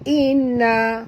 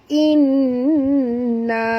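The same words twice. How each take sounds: First: The doubled n is dropped almost completely. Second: The doubled n is nasalised and held for two counts. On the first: The speaker calls it wrong. "langsung hilang nun yang dua tu" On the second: The speaker calls it right. "in tu dengan na tu sama panjang"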